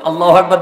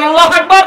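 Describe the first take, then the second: First: Said in the usual way. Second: Very high, loud rallying cry; louder takbir. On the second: Real, not acted. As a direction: shout the takbir to rouse the congregation. (উঁচু গলায় জোরালো তাকবির) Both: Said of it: "আর জোরে বলেন".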